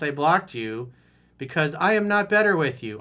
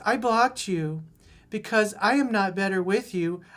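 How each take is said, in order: First: It is said in the speaker's ordinary voice. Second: It is said in a put-on girlish voice.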